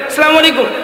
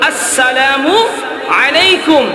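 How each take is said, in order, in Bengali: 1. সালাম শব্দে লম্বা 'a' স্বরটি কাটা। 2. সালাম শব্দে লম্বা 'a' স্বরটি স্পষ্ট। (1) "সালাম যদি শুদ্ধ না হয়" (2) "আলিফ উচ্চারণ সুন্দর করে করতে হবে"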